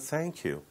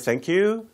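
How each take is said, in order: First: The pitch falls at the end. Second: The pitch rises at the end. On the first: The speaker calls it right. "영어로는 thank you" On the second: The speaker calls it wrong. "thank you 이렇게 하지는 않죠"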